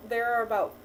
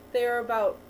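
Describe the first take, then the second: No difference in how they are said.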